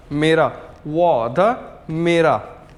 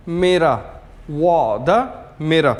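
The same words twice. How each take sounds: The two takes are said the same way.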